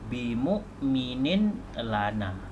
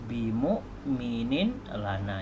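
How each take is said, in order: The two takes are said the same way.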